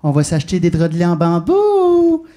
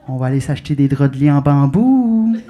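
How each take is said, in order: First: Slow, loud, insistent urging; more insistent inner voice. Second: Low coaxing voice swelling at the end; little inner voice. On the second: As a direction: draw out a loud, rising BAMBOU. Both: Acted. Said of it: "elle revient à la charge un peu plus fort".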